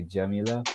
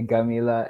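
First: Jamila with a soft J; Jamila, J rather than Egyptian G; standard Arabic J. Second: Gamila with a hard G; Gamila, the Egyptian way with G. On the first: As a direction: say Jamila starting as in "jam". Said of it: "everyone else who speaks Arabic will say". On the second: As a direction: say Gamila starting as in "go". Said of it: "Joy will say Gamila". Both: Shown as a demonstration.

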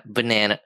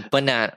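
First: Said in the usual way. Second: "Banana" with a long ah, as Australians say it; imitated Australian pronunciation. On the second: American comparing both ways, "Banana" with an Australian long ah. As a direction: try "Banana" as ba-NAH-na. Tries Australian, then own way.

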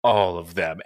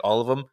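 First: "All of them." pitched low, falling as a statement; grim confirmation. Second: "All of them?" lifted at the end as a question. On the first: Twitching principal answering the coach, grim confirmation. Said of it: "her eye is, like, still twitching". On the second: Coach questioning what the principal told him, questioning. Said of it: "he's just like". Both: Retold or imitated.

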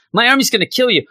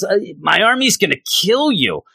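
First: Higher, louder mock villain threat, pushed harder; a hammed-up villain threatening; Mojo threat, louder. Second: Higher mock villain threat; lightly voiced Mojo threatening; a hint of a sneering villain. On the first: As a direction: repeat the threat bigger as Mojo. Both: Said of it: "So Mojo says".

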